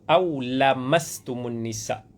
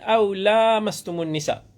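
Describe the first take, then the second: First: The vowel after the 'l' is short. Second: The vowel after the 'l' is long. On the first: It means any kind of touch. "Lamasa tanpa panjang lam" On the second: It means touch broadly, including intimacy. "yang kita baca qiraat Hafs daripada Asim"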